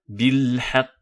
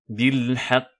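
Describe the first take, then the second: Both takes have the same delivery.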